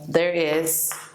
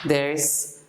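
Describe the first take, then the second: First: Both words are said fully and separately. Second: The two words merge into one shortened word.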